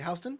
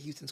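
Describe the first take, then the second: First: Houston is said the New York way. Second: Houston is said the way the city says it. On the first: It names the New York street. "as a New Yorker, we say Houston" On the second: It names the city. "the city of Houston's cool too"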